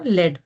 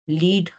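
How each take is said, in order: First: The vowel is a short 'e' sound. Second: The vowel is a long 'ee' sound. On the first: It names a heavy metal. "So a heavy metal" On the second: It means to guide a group. "Leadership वाली लीड"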